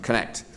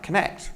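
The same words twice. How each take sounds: First: It is said firmly and abruptly, as an order. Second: It is said softly and openly, trailing off. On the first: The listener is told what to do. The speaker calls it wrong. "rather than connect" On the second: The listener is invited to try it. The speaker calls it right. "the three dots is supposed to make connect like connect"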